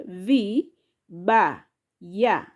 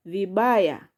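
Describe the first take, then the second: First: "V, ba, ya" in three separated syllables. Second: Said in the usual way. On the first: Shown as a demonstration. Teacher showing learners the three syllables, syllable by syllable. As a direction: break it into V - ba - ya, pausing between each. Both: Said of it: "Those are three syllables".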